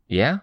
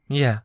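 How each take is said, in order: First: "Yeah" high and rising; questioning. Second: "Yeah" high with a falling end; confirming. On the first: Checking what Sveta said, "Yeah" rising questioningly. Asks for confirmation. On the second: Sveta confirms it, "Yeah" falling. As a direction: drop the end of "Yeah" as an answer. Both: A narrator's reading.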